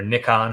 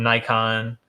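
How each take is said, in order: First: Nikon said as NICK-on; short "i" in Nikon, rhyming with "pick on"; alternative Nikon pronunciation. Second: Said in the usual way. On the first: Shown as a demonstration. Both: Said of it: "however you say it".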